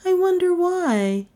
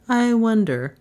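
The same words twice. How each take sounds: First: High, coy woman's voice; coy Melissa. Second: Lightly voiced musing man; musing Trent. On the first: Acted. Passenger teasing her admirer, coy and high. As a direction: wonder aloud in a high, coy voice. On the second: Driver echoing his passenger, lightly musing. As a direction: echo it with a slightly raised, falling tune.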